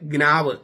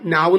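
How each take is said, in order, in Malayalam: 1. ഈ വാക്ക് g ശബ്ദത്തിൽ തുടങ്ങുന്നു. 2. ഈ വാക്ക് n ശബ്ദത്തിൽ തുടങ്ങുന്നു. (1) "ഗ്നാവ് എന്ന് ഞാൻ പറയുന്നത് അതിന്റെ സ്പെല്ലിംഗ് മനസ്സിലാക്കാനാണ്" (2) "ഉച്ചാരണം നാവ് എന്നാണ്"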